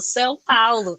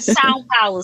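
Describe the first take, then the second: First: The name is said with a Brazilian Portuguese accent. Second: The name is said with an English-style accent. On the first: The speaker calls it right. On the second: The speaker calls it wrong.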